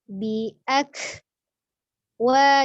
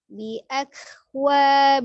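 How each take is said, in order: First: The syllables are said with a break between them. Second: The syllables run together smoothly without a break. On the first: The speaker calls it wrong. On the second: The speaker calls it right. "harus ngalir aja"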